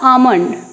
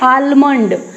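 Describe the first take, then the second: First: The L sound is silent. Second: The L sound is pronounced. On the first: The speaker calls it right. "क्या होगा, आमंड" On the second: The speaker calls it wrong. "आलमंड नहीं होता है"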